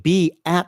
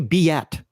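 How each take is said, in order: First: The two words are said without a Y glide. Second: A Y glide links the two words. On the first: "Instead of saying be at home" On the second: "think of this as having a great big Y right here"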